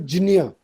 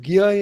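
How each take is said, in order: First: The cluster is sounded like jnya. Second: The cluster is sounded like gya. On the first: This is closest to the assumed historical sound. "let's stick to Jinya ... theoretically closest" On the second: This is how it is said in Hindi. "and then you get Gya in Hindi"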